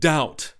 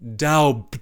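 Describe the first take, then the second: First: The word is said with no b sound. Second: The word is said with a b sound. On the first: This is how the mocked character says it. The speaker calls it wrong. "As to speak the word doubt" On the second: This is how the critic thinks it should be said. The speaker calls it right. "when he should say doubt"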